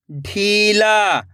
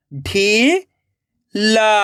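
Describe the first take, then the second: First: ढीला joined as one slow word; blended word. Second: ढीला split into ढी, long pause, ला; rising ढी, then ला alone; syllable by syllable. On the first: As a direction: read ढीला whole, falling at the end. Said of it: "खींच के पढ़ना है". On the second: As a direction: sound out ढीला very slowly in two parts. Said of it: "एक एक अक्षर का उच्चारण करना है". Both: Shown as a demonstration.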